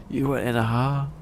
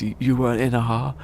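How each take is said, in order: First: Higher, altered mock voice; incredulous Greg. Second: Higher, disbelieving question; incredulous Greg. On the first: Greg Davies doubting the driver again, mock incredulous. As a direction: ask it in sharper disbelief. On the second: Retold or imitated. Greg Davies questioning the driver's claim, incredulous. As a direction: ask it in disbelief.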